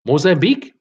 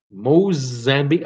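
First: Mozambique asked with a rising, unsure tune; reading an odd guess aloud, puzzled; puzzled question. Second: Mozambique said slowly and lower, testing the word; turning the guess over slowly; slow repeat. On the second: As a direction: drag out Mozambique, mulling it over. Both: Shown as a demonstration.

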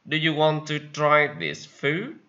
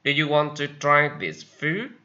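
No difference in how they are said.

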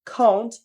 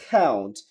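First: High British "count" with AH-oo; British accent. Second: Low American "count" with AE-oo; American accent. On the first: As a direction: lift "count" as KAH-oont. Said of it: "ব্রিটিশরা আও বলে". (British উচ্চারণে) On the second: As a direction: drop "count" as KAE-oont. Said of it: "আমেরিকানরা অ্যাও বলে". (American উচ্চারণে) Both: Shown as a demonstration.

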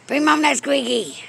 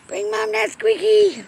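First: Said in the usual way. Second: Same request jumped much higher; high coaxing. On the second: Real, not acted. Owner coaxing her cat to bring the toy, high coaxing voice. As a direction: coax the cat in a high sing-song.

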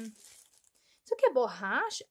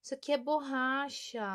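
First: "Isso aqui é borracha?" asked with a rising tune on é; wondering aloud whether it is an eraser; questioning rise. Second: "Isso aqui é borracha." stated with a falling tune, settled; confirming fall. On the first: Checking an item in the box, a curious rising question. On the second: Having checked the item, a satisfied falling statement. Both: Real, not acted.

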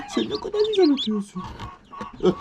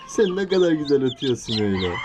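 First: Much higher, squeaky chick-like coo. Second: Said in the usual way. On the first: Real, not acted. Man praising a chirping chick in a high cooing voice.

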